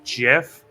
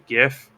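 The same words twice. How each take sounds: First: The word starts with a soft G sound. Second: The word starts with a hard G sound. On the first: This is how the creator says it. "the guy who made GIF uh, says it's pronounced GIF" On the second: The G stands for graphics. "since the G stands for graphics, it should be GIF"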